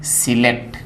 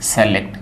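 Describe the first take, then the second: First: सिलेक्ट with short सि at the start; correct pronunciation. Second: सेलेक्ट beginning with से, not सि; common mispronunciation. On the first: Teacher gives the right form, correct pronunciation. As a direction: begin सिलेक्ट on a short i vowel. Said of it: "इसका सही उच्चारण क्या है". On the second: Teacher repeats the wrong form, common mispronunciation. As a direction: say सेलेक्ट with an e-like first vowel. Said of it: "ये सही इसका उच्चारण नहीं है". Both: Shown as a demonstration.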